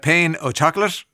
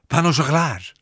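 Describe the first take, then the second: First: It is said with an English-sounding pronunciation. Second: It is said with an exaggerated French pronunciation. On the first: "do you say a pain of chocolate" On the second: "do you go full on hello and go"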